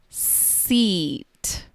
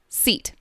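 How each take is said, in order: First: The word is drawn out very slowly. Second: The word is said at a normal speed. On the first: "then I will repeat each word very slowly" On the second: "I'm going to say each word normally first"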